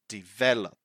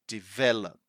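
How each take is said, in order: No difference in how they are said.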